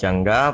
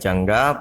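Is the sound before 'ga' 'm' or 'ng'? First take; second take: ng; ng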